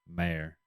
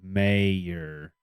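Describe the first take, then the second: First: The first vowel is short and not exaggerated. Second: The first vowel is drawn out and exaggerated. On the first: The speaker calls it wrong. "not a mayor" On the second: The speaker calls it right. "You gotta exaggerate the A"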